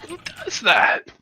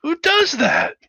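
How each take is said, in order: First: High, drawn-out disbelief; slower repeat. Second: Very high, louder disbelief; incredulous shout. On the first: Hangar crewman repeats his question slower, still in disbelief. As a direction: shake your head and ask again slowly. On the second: Hangar crewman can't believe the raiders blew their ship, high cry. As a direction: fling the question at the room. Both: Acted. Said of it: "hangar bay go".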